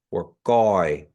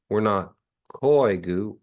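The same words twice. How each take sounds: First: Goi, G K pressed together; glottal stop drill. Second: Koigu with aspirated k; wrong take Koigu. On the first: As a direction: say Goi with throat catch. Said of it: "we say ourselves as Kiowas". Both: Shown as a demonstration.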